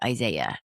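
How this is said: The name is said with an American pronunciation. "in the U S you say"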